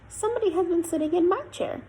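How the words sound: The voice is high and squeaky. "in a squeaky baby voice"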